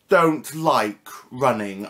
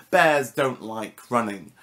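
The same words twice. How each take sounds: First: Don't stretched and leaned on, slow; slow, weighty don't; stress on don't. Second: Bears punched first, slow falling finish; slow, weighted bears; stress on bears. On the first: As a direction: lean hard on don't, slow it down. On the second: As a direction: hit bears, then let it fall slowly. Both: Shown as a demonstration.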